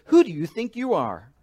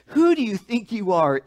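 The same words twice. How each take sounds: First: A mild mock challenge, a bit louder; lightly voiced angry priest asking; indignant challenge. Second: Fuller, louder and higher mock challenge; louder indignant challenge. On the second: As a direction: hit it harder on the repeat. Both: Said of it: "the modern translation".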